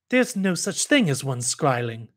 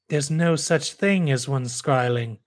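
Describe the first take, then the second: First: It is said with some expression. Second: It is said in a flat, level tone.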